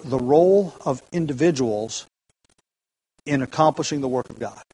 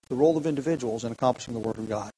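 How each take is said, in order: First: Measured citation from a commentary; read out as a quote. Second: Fast, softer restatement of the quote; brisk softer echo of the cited line; quick recap. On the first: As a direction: read the quote out carefully, weighing "role". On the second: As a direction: rattle it back off quietly. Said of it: "end quote". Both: Shown as a demonstration.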